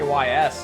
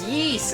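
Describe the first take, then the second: First: The name is spelled out as two letters. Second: The name is said as one word, "yeast". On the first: The speaker calls it wrong. "I used to just say Y S" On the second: The speaker calls it right. "someone was like, it's yeast"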